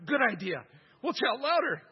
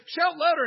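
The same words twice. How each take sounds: First: Louder, higher, keen reply; the priests agreeing eagerly, gullible; eager agreement. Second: Much higher, louder jeering cry; mock shout. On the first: Retold or imitated. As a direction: play the gullible priests, all in. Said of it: "they're like". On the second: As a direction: bellow the taunt up high. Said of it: "he says".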